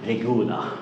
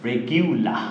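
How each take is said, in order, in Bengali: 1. মাঝের সিলেবলটি সাধারণ 'goo' ধ্বনি। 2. মাঝের সিলেবলে 'gyoo' ধ্বনি আছে। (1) "আমরা বলি কি রেগুলার" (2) "এটা সঠিক উচ্চারণ হচ্ছে ... এটা গিউ হয়ে যায়"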